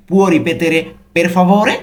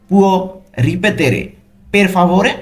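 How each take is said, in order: First: "Può ripetere per favore?" slowly in one connected phrase, rising at the end; careful pronunciation. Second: "Può... ripetere... per favore?" broken into pieces with clear pauses; careful pronunciation. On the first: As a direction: model the whole "Può ripetere per favore?" without breaks. ("Può ripetere per favore?" ধীরে একটানা উচ্চারণ) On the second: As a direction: dictate "Può", "ripetere", "per favore" one chunk at a time. ("Può... ripetere... per favore?" থেমে থেমে স্পষ্ট উচ্চারণ) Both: Shown as a demonstration. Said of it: "উচ্চারণগুলো কিন্তু ভালো মতো খেয়াল করবেন".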